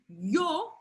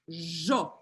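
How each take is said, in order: First: It is said with a general Spanish pronunciation. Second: It is said with an Argentine Spanish pronunciation.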